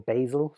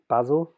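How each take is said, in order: First: It is said in an American accent. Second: It is said in a non-American accent.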